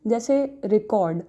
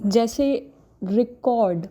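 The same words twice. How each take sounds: First: record as the noun, stress on the first syllable RE-cord. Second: record as the verb, stress on the second syllable re-CORD. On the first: Lecturer demonstrating the noun record, first-syllable stress. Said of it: "record को noun और, और verb में अलग-अलग तरीके से". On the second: Lecturer demonstrating the verb record, second-syllable stress. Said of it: "because the stress is on the second syllable". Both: Shown as a demonstration.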